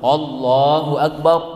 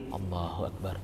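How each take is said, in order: First: It is said loudly, like a command. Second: It is said quietly, under the breath.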